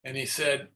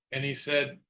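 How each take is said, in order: Both takes have the same delivery.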